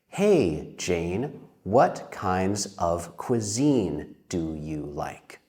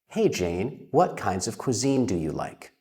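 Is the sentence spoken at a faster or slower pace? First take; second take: slower; faster. First: The sentence is spoken at a slower pace. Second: The sentence is spoken at a faster pace. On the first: "So you could say this" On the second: "Saying that faster, it sounds like this"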